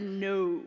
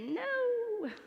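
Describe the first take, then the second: First: It is said in a more manly voice. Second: It is said in a less manly voice.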